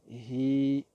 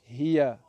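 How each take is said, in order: First: The word ends without its final vowel. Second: The word ends with a final vowel sound.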